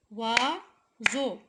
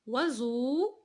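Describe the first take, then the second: First: "Oiseau" split as OI, pause, SEAU; syllable by syllable. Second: Said in the usual way. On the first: Shown as a demonstration. Teacher counting syllables for pupils, "Oiseau" chopped in two. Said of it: "deux syllabes". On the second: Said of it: "avant de frapper les syllabes".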